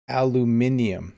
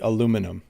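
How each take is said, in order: First: The word is said with five syllables. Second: The word is said with four syllables. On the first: This is how it is said outside North America. "one of the countries where they say aluminium" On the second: This is how it is said in Canada. "in Canada, we say aluminum"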